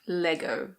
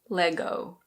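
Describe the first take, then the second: First: It is said with a British pronunciation. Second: It is said with an American pronunciation. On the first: "that's the British pronunciation" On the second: "In American pronunciation, the O is a bit different"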